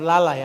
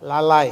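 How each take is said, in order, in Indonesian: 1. Bunyi i di akhir kata tidak diucapkan dengan jelas. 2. Bunyi i di akhir kata diucapkan dengan jelas. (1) "bukan lalai ya" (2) "ada i-nya"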